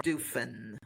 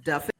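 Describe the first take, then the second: First: "Duffin" with a long "oo", like "DOO-fin"; Duffin as "Doofin". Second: "Duffin" with a short "uh" as in muffin; Duffin rhyming with muffin. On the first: Host offering a second guess at a surname, "Duffin" said as "DOO-fin". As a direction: say "Duffin" with "doo" as first syllable, softly. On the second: Host checking a guest's surname, "Duffin" said with short "uh". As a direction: say "Duffin" with the first vowel of "duff". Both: Shown as a demonstration. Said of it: "make sure that I'm pronouncing it correctly".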